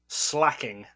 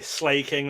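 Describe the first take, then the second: First: The first vowel is short, as in 'slack'. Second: The first vowel is long, as in 'slay'. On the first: The speaker calls it wrong. "there's no slacking. There's there's no C in it" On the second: The speaker calls it right. "the A automatically becomes long before a K"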